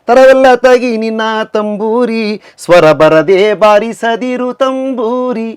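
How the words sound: The pause falls before the word swara. Do not play the tambura without bringing out the tune. The speaker calls it right. "Actually ಏನಾಗಬೇಕು? ... ತಂಬೂರಿಗೆ ಅಲ್ಲಿ ನಿಲ್ pass ಕೊಡ್ಬೇಕು"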